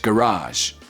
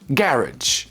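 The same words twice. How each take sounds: First: The stress is on the second syllable. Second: The stress is on the first syllable. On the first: "So you stress the second syllable in American English" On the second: "And the first syllable in British English"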